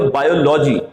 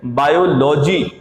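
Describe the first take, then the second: First: बायोलॉजी with a full "lo-jee"; the common mispronunciation. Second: बायोलॉजी as "bye-ol-jee", slow; correct pronunciation. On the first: Teacher mimics students' wrong बायोलॉजी. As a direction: imitate learners stressing लॉजी in बायोलॉजी. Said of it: "आप बोलते हो". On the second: Teacher models the corrected बायोलॉजी. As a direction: say बायोलॉजी slowly with ओलॉजी ending. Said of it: "बायोलॉजी नहीं होगा". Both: Shown as a demonstration.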